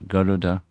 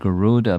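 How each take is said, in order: First: The name is said with a Sanskrit pronunciation. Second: The name is said with an anglicized pronunciation. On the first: The speaker calls it right. "pronounced properly" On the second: The speaker calls it wrong. "not Garuda"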